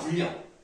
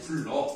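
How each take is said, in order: First: The last syllable is read as 'ryang'. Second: The last syllable is read as 'reo'. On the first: The character is read for its meaning. The speaker calls it wrong. "이렇게 읽지 않습니다" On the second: The character only stands for its sound. The speaker calls it right. "그냥 이렇게 하면 돼요"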